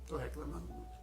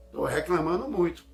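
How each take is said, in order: First: Hushed, much softer admission; autocrítica baixinha. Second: Loud, emphatic self-reproach; autorrepreensão enfática. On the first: Repeat of the self-reproach. (admitindo baixinho) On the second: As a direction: call yourself out, loudly. Voicing a self-reproach, repeated softer. (autocrítica em voz alta) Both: Acted.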